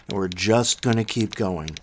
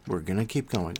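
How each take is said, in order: First: Said in the usual way. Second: Softer repeat, dropped to nearly half volume; quiet echo. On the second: Real, not acted. Host repeating his promise to listeners, quiet echo. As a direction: let it fall away like an echo to yourself.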